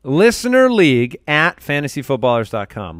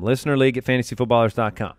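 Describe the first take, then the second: First: Said in the usual way. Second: Fast and softer, tossed off; quick repeat. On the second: Shown as a demonstration. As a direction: rattle it off quickly.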